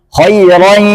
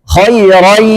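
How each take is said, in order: No difference in how they are said.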